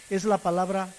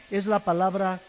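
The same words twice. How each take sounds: The two takes are said the same way.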